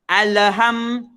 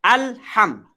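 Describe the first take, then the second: First: The l is followed by an extra vowel sound. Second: The l is clean with no extra vowel. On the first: The speaker calls it wrong. "Ada bunyi le. Le salah" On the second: The speaker calls it right. "Bacaannya jelas"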